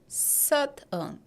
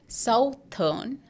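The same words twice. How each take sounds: First: The first syllable does not sound like south. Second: The first syllable sounds like the word south. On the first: The speaker calls it right. "but this is southern" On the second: The speaker calls it wrong. "But this is not southern, We won't say south here"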